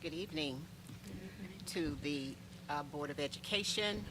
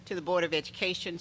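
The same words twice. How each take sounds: First: Softly addressing the board, halting; soft, hesitant start. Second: Clearly projected address to the board; speaking up. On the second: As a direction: restart the greeting with more volume. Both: Real, not acted. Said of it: "I'll speak with my inside voice".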